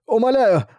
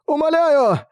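First: High begging cry; desperate pleading. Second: Even higher desperate cry; frantic pleading. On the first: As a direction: plead with rising panic. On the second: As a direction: beg at the top of the voice. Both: Acted.

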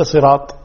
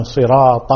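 First: صراط ending on a bare t; missing fatha. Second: صراط as "siraata" with clear final a; open ta. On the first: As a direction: cut صراط short at "sirat". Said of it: "ليس". (صراط بطاء ساكنة) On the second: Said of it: "فتح الطاء". (فتح طاء صراط) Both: Shown as a demonstration.

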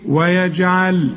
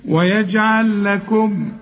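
First: ويجعل slow, final lam said clearly at a pause; stop on ويجعل. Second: ويجعل لكم slow, lams merged into one doubled lam. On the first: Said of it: "لكن إذا وقفت تقول إيه". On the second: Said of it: "وإذا وصلت تقول إيه". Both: Shown as a demonstration.

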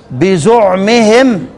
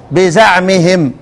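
First: "بزعمهم" drawn out with a u after the z: bizu'mihim; damma on zay. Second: "بزعمهم" slowly with an a after the z: biza'mihim; fatha on zay. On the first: ("بزعمهم" بضم الزاي، ببطء) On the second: ("بزعمهم" بفتح الزاي، ببطء) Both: Shown as a demonstration. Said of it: "انفرد الكسائي بضم الزاي".

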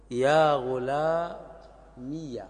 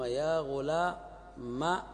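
First: يا غلامي said very slowly as ghulamiya, open ya at the end; first original form. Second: يا غلامي said very slowly as ghulama, ya turned to alif; second changed form. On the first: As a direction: draw out يا غلامي with the ya opened. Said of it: "أولًا". (النطق الأول: يا غلاميَ ببطء شديد) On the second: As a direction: draw out يا غلامي ending in a long a. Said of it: "ثانيًا". (النطق الثاني: يا غلاما ببطء شديد) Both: Shown as a demonstration.

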